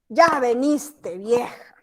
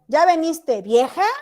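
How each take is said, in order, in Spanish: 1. Se dice con un tono molesto. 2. Se dice llamando a la persona. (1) "No le gustó que llegó la vieja" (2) "le está llamando vieja"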